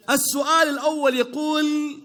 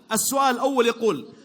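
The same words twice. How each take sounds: First: Drawn-out quiz host reading; slow, measured quiz-host announcement; slow announcer read. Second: Said in the usual way. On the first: Shown as a demonstration. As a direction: stretch it out like a game show host.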